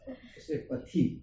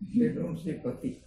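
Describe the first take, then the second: First: The t sound has an added puff of breath. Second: The t sound is plain, without breath. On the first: "One H they will add"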